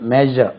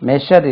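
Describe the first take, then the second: First: The middle consonant is not a 'sh' sound. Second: The middle consonant is a 'sh' sound. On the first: The speaker calls it right. "இது measure" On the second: The speaker calls it wrong. "இந்த ஷா use பண்ணக்கூடாது, measure இல்லை"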